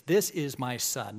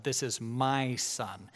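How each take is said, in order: First: Said in the usual way. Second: "my" leaned on, slow and falling; stress on my. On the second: Shown as a demonstration. Preacher contrasts my son with adopted son, stressing "my". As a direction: press hard on "my" in "this is my son". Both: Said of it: "not my adopted son".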